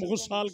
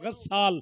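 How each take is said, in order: First: The first vowel is 'u' instead of 'a'. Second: The first vowel is 'a', rhyming with qawwaal. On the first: The speaker calls it wrong. "जिसे तुम गुस्साल कहते हो" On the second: The speaker calls it right. "ये गस्साल है, कव्वाल के वजन पे"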